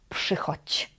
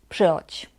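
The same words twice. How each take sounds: First: The word is said slowly and carefully. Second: The word is said quickly and reduced.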